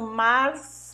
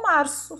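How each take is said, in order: First: The z is a blown th sound. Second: The z is a plain s sound. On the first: "que é soprando assim" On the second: "sem assoprar, normal"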